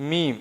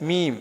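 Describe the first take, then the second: The two takes are said the same way.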